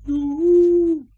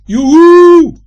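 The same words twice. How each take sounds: First: High, drawn-out fading echo call; thinner, held far-away yoo-hoo; soft distant echo. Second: Long, high, very loud holler; high drawn-out yoo-hoo call. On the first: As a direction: echo the holler back from afar. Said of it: "klinkt het heel zachtjes terug". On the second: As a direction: call at full volume into the distance. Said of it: "roept Joris luidkeels". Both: A narrator's reading.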